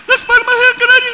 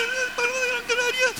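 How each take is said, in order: First: Very high, loud metallic call. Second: Very high and much softer echo; faint echo. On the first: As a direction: call it out across the mountains. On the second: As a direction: answer faintly like a distant echo. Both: Shown as a demonstration. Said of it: "El eco de una montaña".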